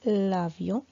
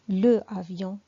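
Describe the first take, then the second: First: The article loses its vowel and joins the noun. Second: The article keeps its vowel before the noun. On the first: The speaker calls it right. "je fais la liaison et on dit l'avion" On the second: The speaker calls it wrong. "Je ne peux pas dire le avion"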